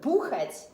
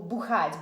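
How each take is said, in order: First: The stress falls on the first syllable. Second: The stress falls on the second syllable. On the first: To put something down with a loud noise. "if you change the stress on it, ... but бухать" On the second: To drink hard liquor and get drunk. "not to бухать"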